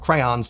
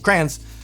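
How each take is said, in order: First: The word is said in its fuller form. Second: The word is said in its shortest form. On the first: "shortening words like crayons" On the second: "to crayons"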